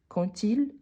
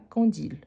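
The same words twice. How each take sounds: First: Quand links to il with a t sound. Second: Quand and il are said without a t link. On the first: The speaker calls it right. "il y a le son de T quand on fait la liaison" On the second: The speaker calls it wrong. "et pas"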